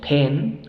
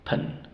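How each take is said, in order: First: The vowel is a full, clear e sound. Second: The vowel is reduced to a weak schwa. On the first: The speaker calls it wrong. "no decimos pen así, no" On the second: The speaker calls it right. "se reduce a un schwa"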